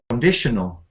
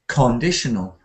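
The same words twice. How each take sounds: First: The first syllable is quiet and unstressed. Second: The first syllable is stressed. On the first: The speaker calls it right. "if you say con quietly" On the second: The speaker calls it wrong. "you've stressed it. You know, like conditional, and it sounds wrong"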